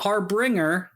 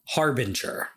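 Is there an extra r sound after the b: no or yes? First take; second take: yes; no. First: An extra r sound follows the b. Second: No r sound follows the b. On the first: The speaker calls it wrong. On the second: The speaker calls it right.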